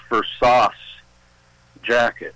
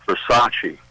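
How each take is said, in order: First: "Versace" said as ver-SASS, final vowel dropped; "Versace" botched to rhyme with sauce; mispronounced brand name. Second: "Versace" said as ver-SAH-chee; "Versace" in three syllables, ver-SAH-chee; correct pronunciation. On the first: Retold or imitated. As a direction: say "Versace" wrongly, ending on an s sound. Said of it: "everybody that she was trying to impress knew". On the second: Shown as a demonstration. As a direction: say "Versace" with a ch and a final ee.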